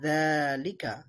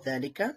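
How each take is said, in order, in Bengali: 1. প্রথম স্বরটি টানতে হবে। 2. প্রথম স্বরটি হ্রস্ব। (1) "যা এর মধ্যে এক আলিফ টান দিয়ে পড়তে হবে" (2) "এটা লেখা আছে যালিকা"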